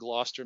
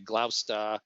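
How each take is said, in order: First: It is said in a general American accent. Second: It is said in a local New England accent.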